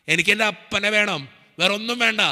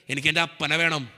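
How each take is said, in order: First: Higher, louder retold plea to God; pleading prayer. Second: Said in the usual way. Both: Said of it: "ഞാൻ പ്രാർത്ഥിച്ചത് ഇങ്ങനെയാ".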